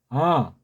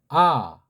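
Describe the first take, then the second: First: The vowel resonates high behind the nose. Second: The vowel comes out at the front of the mouth. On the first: "입 안을 둥그렇게 크게 넓게 열고 소리를 위쪽으로 코 뒤쪽으로 해서 머리통을 치게" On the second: "입 앞쪽으로 가운데에서 앞쪽으로 나오는 그 조음점 위치에서"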